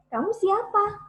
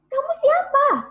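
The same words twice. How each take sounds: First: It is said with moderate vocal power. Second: It is said loudly with maximum vocal power.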